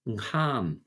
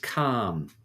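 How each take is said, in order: First: The word begins with a nasal ng sound. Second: The word begins with a hard k sound. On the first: The word follows the word for my. "when you have the word my in front of it, fy, the word becomes nghan" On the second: The word stands alone. "the word for song is calm"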